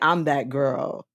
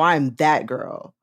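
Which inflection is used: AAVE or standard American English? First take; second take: AAVE; standard American. First: It has an AAVE inflection. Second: It has a standard American English inflection. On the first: The person is simply impressive as they are. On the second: The person has a trendy internet aesthetic.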